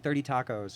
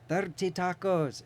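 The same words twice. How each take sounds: First: It is said in a plain, normal voice. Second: It is said in the speaker's marked accent. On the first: The listener could finally understand it. "I just had to say it in a normal voice" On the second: The listener could not understand it. "they were daring me to order in my accent"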